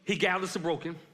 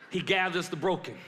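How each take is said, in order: First: It is said at a quicker pace. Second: It is said slowly.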